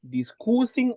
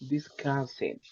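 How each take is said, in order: First: The u vowel sounds like a Spanish oo. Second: The u vowel sounds like a short uh. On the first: The speaker calls it wrong. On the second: The speaker calls it right.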